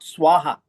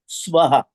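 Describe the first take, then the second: First: It is said like the offering word swaha. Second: It is said unlike the offering word swaha. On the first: It names the word used when making an offering. The speaker calls it wrong. "is pronounced as not Swaha, because a lot of people pronounce it as Swaha" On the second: It names the middle world in the mantra. The speaker calls it right. "It's Swaha"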